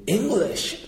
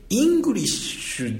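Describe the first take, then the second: First: "エングリッシュ" with an "e" sound, stressed on "グ"; wrong vowel. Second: "イングリッシュ" with a clear "i" sound and stress on "ン"; correct English vowel. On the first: Teacher demonstrating the wrong English vowel. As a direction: say "エングリッシュ" opening on "e" instead of "i". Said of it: "イングリッシュじゃなくて". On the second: Teacher contrasting the right vowel in English. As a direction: start "イングリッシュ" on a crisp "i". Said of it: "エングリッシュって". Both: Shown as a demonstration.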